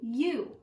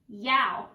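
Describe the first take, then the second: First: The vowel sounds like 'oo' in 'moon'. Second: The vowel sounds like 'ow' in 'cow'. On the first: The speaker calls it right. "O U also makes an oo sound" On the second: The speaker calls it wrong. "if I were to make that ow sound"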